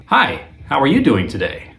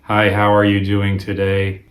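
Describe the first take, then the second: First: "you" stressed, pitched higher, falling to the end; different inflection. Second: Even, matter-of-fact "Hi, how are you doing today?"; first reading. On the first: Guitar teacher contrasting inflections for students, stressing you. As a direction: lean on "you" in "how are you doing today?" and let it fall. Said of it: "as opposed to". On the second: Guitar teacher showing students a first inflection, evenly. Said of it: "if I were to say". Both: Shown as a demonstration.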